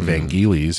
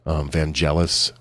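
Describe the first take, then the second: First: The name is said with Greek pronunciation. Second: The name is said with English pronunciation. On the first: This is how native speakers say the name. The speaker calls it right. "if you're Greek, that's how you pronounce it" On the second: This is how the name is commonly said in English. The speaker calls it wrong. "is how I pronounced it forever"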